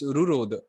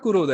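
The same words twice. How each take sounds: First: "रुरोद" starting with an r sound; "रुरोद" as the correction, opening on ru; corrected first syllable. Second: "कुरोद" starting with a k sound; "कुरोद" as the mistaken reading, opening on ku; misread first syllable. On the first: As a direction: say "रुरोद" with ru at the front. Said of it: "it's not कुरोद". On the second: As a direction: say "कुरोद" with ku at the front. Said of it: "it's रुरोद". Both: Shown as a demonstration.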